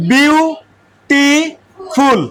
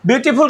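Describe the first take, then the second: First: বিউটিফুল drawn out very slowly, syllable by syllable; teacher breaking বিউটিফুল into separate slow syllables; broken into syllables. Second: Said in the usual way. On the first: Shown as a demonstration. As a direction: split বিউটিফুল into three long beats, bew, tee, ful, with gaps. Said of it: "বিউটিফুল কে তুমি একটু ভাঙো তো". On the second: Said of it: "একটু ভাঙো তো".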